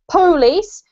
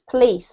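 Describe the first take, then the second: First: It is said the southern US way. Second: It is said the UK or northern US way. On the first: The speaker calls it wrong. "that's a really sort of southern U S A type of accent" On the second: The speaker calls it right. "if you're from the U K and the north of the U S A, you pronounce this police"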